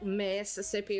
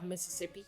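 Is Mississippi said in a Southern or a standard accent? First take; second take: Southern; standard. First: It is said in a Southern American accent. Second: It is said without a Southern American accent. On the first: "the way that I pronounce Mississippi" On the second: "instead of"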